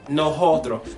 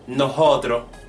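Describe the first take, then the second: Both takes have the same delivery.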